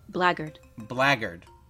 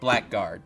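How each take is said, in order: First: No k sound is heard in the middle. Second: A k sound is heard in the middle. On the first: The speaker calls it right. "The K is silent" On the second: The speaker calls it wrong.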